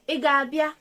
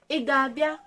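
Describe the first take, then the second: No difference in how they are said.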